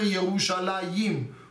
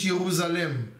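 First: The ending includes a 'y' sound. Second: The ending has no 'y' sound. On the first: This is how Hebrew speakers always say it. The speaker calls it right. "die sprechen Ivrit, betonen immer Jerusalem" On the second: This form lacks the letter yod. The speaker calls it wrong. "Und nicht Jerusalem, weil da fehlt ein Jud"

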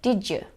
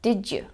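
First: The d and y blend into a j sound. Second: The d and y blend into a j sound.

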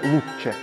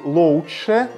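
First: The word is said shorter with a plain 'у'. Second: The word is said with an 'оу' diphthong. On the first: This is the modern contracted form. "стали ще коротше вимовляти це слово" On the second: This is a later intermediate form. "тобто такий дифтонг, подвійний звук «оу»"

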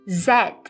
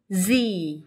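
First: The letter is said as zed, British style. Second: The letter is said as zee, American style. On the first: "được phát âm theo cách Anh" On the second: "theo cách nói Anh Mỹ"

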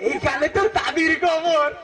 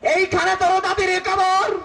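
First: It is recited while laughing throughout. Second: It is declaimed like a politician's rousing speech. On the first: Someone who always laughs recites the poem. "সে সবসময় হাসে" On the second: A political leader recites the poem. "নেতা আসছে কবিতা আবৃত্তি করতে"

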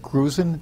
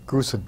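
First: The middle consonant is a buzzing Z sound. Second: The middle consonant is a hissing S sound. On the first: The speaker calls it wrong. "German pronunciation" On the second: The speaker calls it right. "S, not a Z"

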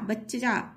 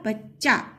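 First: A full vowel separates the two ch sounds. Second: The two ch sounds join with no vowel. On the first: The speaker calls it wrong. "अगर पूरे पूरा च होता तो" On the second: The speaker calls it right. "लेकिन ऐसे नहीं होगा"

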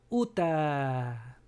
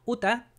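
First: The final A vowel is drawn out long. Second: The final A vowel is cut short quickly. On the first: The speaker calls it right. "Extiende la A, no tenga miedo" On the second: The speaker calls it wrong. "así muy rápido, va a quitarle el Aleph"

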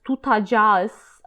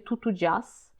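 First: The second vowel sounds like 'a'. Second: The second vowel sounds like 'u'. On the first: This is the careful standard form. "zamiast tutadzias" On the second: This is the casual everyday form. "mówię tutudzias"

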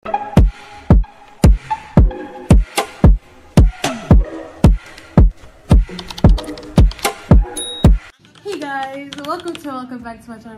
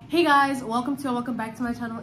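First: It is mumbled and unclear. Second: It is spoken clearly.

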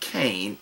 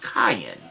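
First: The name is said as one syllable. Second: The name is said as two syllables. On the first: The speaker calls it wrong. "is not Cain" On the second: The speaker calls it right. "it's Kayin. It's pronounced Kayin"

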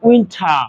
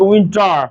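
First: The r after the vowel is silent. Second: The r after the vowel is pronounced. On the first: "ওরা বলবে উইন্টার" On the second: "র নিয়ে আসবে"

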